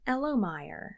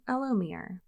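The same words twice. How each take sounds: First: "Elomire" ending like "mire"; company-name pronunciation. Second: "Elomere" ending like "meer"; alternative pronunciation. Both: Shown as a demonstration. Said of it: "name their company something normal instead".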